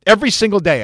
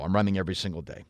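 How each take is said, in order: First: "Every" hit high and loud, whole phrase louder; emphatic repeat. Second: Said in the usual way. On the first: Real, not acted. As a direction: punch "Every single day" with force. Emphatic repeat of own answer.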